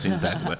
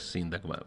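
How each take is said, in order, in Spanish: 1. El nombre se pronuncia con pronunciación española. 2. El nombre se pronuncia con pronunciación griega. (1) "la pronunciamos en español, es Sintagma" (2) "en griego es Sintagma"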